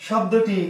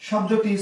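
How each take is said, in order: No difference in how they are said.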